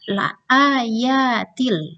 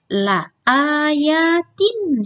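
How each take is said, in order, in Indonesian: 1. Bunyi n menyatu menjadi bunyi l. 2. Kata itu berakhir dengan bunyi n yang jelas. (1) "tanwinnya tidak dibaca nunnya, innya hilang" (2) "harakatnya dia ada kasroh tanwin"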